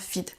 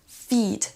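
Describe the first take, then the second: First: The vowel is a short i sound. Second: The vowel is a long ee sound. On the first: The speaker calls it wrong. "et pas" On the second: The speaker calls it right. "Vous devez prononcer un i long"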